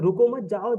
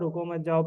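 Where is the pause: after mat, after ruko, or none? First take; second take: after mat; none. First: A pause comes right after the word mat. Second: It is read straight through with no pause. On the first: "जाओ जाओ जाओ, निकल जाओ निकल जाओ, यहाँ मत रुको" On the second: "बस रुको मत जाओ रुको मत जाओ पढ़ेगा वो"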